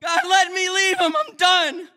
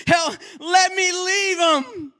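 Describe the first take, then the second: First: High loud tearful plea; emotional cry. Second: High, loud, slow, crying plea; real emotional outcry. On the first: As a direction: push through the tears. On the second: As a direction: let the tears break through the shout. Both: Real, not acted. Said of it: "I got a little emotional right there".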